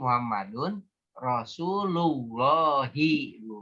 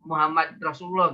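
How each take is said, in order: First: The final vowel endings are fully pronounced. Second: The final vowel endings are left off. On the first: This shows the grammatical case of each word. "nggak boleh dimatikan Bu. Semuanya harus dibaca" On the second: This is the ordinary way of reading it.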